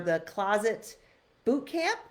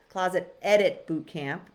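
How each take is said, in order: First: Said in the usual way. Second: "edit" punched louder than the words around it; stress on EDIT. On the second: Shown as a demonstration. Host correcting the program's name for her viewers, stressing "edit". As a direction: lean hard on the word "edit". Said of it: "with an emphasis on the word edit".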